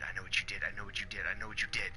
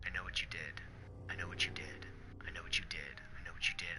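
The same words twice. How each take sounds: First: Said in the usual way. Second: Breathy, haunting whisper, each line a soft accusation; creepy repeated whisper from a dead woman's note; eerie whisper. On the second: Acted. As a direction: whisper it like a ghost at your ear. Creepy note repeated, read aloud.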